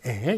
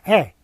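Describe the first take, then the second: First: The vowel is said with a natural mouth opening. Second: The vowel is said with a wider-open mouth. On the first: "그냥 자연스럽게" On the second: "입을 더, 더 크게 벌리는 에입니다"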